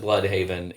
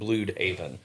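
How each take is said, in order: First: The name is said with ordinary English sounds. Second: The name is said with German-sounding vowels. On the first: This is the usual pronunciation. "they don't pronounce it Bloodhaven" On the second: This signals a Nazi-ruled world. "they pronounce it Bloodhaven. Like it's German"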